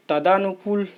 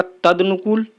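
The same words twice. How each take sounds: First: तदानुकूल with long aa, 'ta-daa-nu-kool'; wrong form. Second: तदनुकूल without long aa, 'tad-nu-kool'; corrected form. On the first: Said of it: "नहीं होता है". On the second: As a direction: clip तदनुकूल to tad before nukool. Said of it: "शुद्ध शब्द होगा". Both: Shown as a demonstration.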